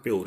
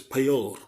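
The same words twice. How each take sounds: First: Pure said flat as po; pure without the u glide; wrong pure. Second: Pure with a small u glide before the vowel; right pure. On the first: Teacher shows a class the wrong pure. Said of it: "It's not pure". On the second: Teacher shows a class the right pure. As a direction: say pure as pyoor. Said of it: "it's pure". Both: Shown as a demonstration.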